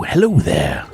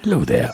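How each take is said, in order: First: Hesitant high hello; nervous goat greeting. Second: High cutesy greeting. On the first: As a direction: greet it timidly. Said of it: "H-, hello". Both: Shown as a demonstration.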